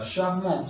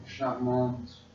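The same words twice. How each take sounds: First: CHARMANT drawn out, ending nasal with silent T; masculine form. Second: CHARMANTE said slowly with the final T sounded; feminine form. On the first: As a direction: slowly say "charmant" without the final T. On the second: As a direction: slowly finish "charmante" on an audible T. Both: Shown as a demonstration. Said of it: "C'est féminin".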